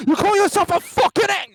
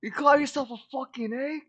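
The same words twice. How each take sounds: First: Much higher, louder mock British chef shout; Gordon Ramsay impression. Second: High, mock British chef roar; Gordon Ramsay impression. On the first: Topping a friend's impression, loud mock chef shout. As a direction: scream it like a furious celebrity chef. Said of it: "I can't, I can't do a Gordon Ramsay". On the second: Friend mocks Dragoon as a bad egg, mock chef rant. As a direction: sneer it like an angry TV chef. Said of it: "I can't do a Gordon Ramsay".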